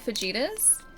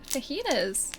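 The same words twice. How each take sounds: First: It is said with the old Australian-style pronunciation. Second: It is said with the standard pronunciation.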